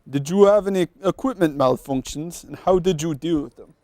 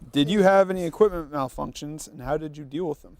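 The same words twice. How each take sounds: First: It is read in a put-on Russian accent. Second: It is read in the speaker's normal accent.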